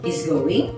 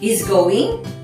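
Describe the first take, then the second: First: The voice falls at the end. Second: The voice rises at the end. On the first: It is a statement. "with falling intonation is a statement" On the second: It is a question. "with a rising intonation is a question"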